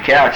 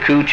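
First: The vowel sounds like 'ow' in 'cow'. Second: The vowel sounds like 'oo' in 'smooch'. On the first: "you can pronounce it cooch or couch either way" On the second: "you can pronounce it cooch or couch either way"

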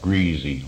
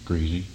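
First: The middle consonant is a z sound. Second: The middle consonant is an s sound.

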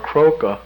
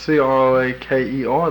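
First: The word ends with an ah sound. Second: The word ends with an r sound. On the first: "which is an A on the end" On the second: "spelled C-R-O-A-K-E-R the way it's pronounced"

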